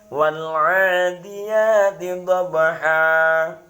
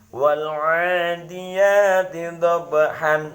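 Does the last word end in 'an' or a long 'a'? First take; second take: long a; an. First: The last word ends with a long 'a' vowel. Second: The last word ends with a nasal 'an' sound. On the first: The tanwin becomes a lengthened vowel when stopping. The speaker calls it right. "cara membaca yang benar mad iwadnya" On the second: It follows the written tanwin as it stands. The speaker calls it wrong. "Saya baca apa adanya, fathah harokat tanwinnya"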